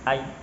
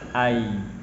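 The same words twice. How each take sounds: First: The sound is held back and cut short. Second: The sound flows on softly without stopping. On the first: The speaker calls it wrong. "tidak seperti itu" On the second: The speaker calls it right. "tapi berjalan"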